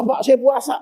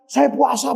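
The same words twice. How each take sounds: First: Pleading shout. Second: Said in the usual way. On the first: Retold or imitated. Offender pleading to police.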